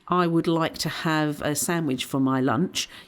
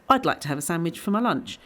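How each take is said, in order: First: I would is said as two full words. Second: I would is shortened to one syllable, I'd. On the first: It sounds formal, less like natural talk. The speaker calls it wrong. "instead of saying" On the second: It sounds more conversational and natural. The speaker calls it right. "you'd use the I'd instead of I would like to"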